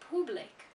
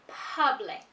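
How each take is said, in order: First: The first vowel is an 'oo' sound. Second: The first vowel is not an 'oo' sound. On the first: The speaker calls it wrong. "they pronounce the letter U as a U" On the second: The speaker calls it right. "This word is pronounced public"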